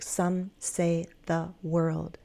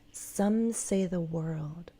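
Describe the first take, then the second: First: Each word is said separately, with breaks between. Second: The words run smoothly together without breaks. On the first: The speaker calls it wrong. "We don't want words to be isolated like" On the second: The speaker calls it right.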